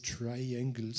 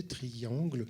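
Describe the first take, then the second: First: Triangles said the English way, TRY-ang-gles, slowly; careful English Triangles, stress on the first syllable, a French accent showing; English pronunciation. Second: Triangle said the French way, tree-ANGL; French pronunciation. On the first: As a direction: Triangles in English, slow and a little hesitant. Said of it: "on devrait le prononcer à l'anglaise". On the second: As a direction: Triangle with French vowels, stress on the last syllable. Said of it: "je vais le dire en français". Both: Shown as a demonstration.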